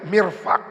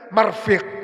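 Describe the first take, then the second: First: The first vowel is i, the second a. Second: The first vowel is a, the second i. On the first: The speaker calls it right. "Bikasril mimi, dengan dibaca kasro mimnya" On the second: The speaker calls it wrong. "dari baca daripada dibaca sebaliknya"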